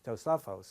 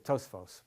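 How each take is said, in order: First: A vowel is heard between the s and f. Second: No vowel is heard between the s and f. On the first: This is the actual Hebrew form. The speaker calls it right. "it's obviously Tosafos" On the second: This is the common everyday form. The speaker calls it wrong. "People always say Tosfos"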